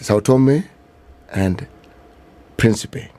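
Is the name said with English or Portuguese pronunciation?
English. The name is said with English pronunciation. "As in English"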